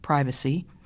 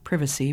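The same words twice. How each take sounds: First: It is said with an American pronunciation. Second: It is said with a British pronunciation. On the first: "where we say privacy" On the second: "the British say privacy"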